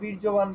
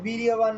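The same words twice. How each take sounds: First: The consonant after 'vir' sounds like y. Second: The consonant after 'vir' sounds like j. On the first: The speaker calls it right. "আমাদের বীর্যবান বলতে হবে" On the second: The speaker calls it wrong. "না বলে"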